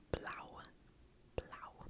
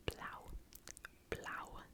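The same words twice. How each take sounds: The two takes are said the same way.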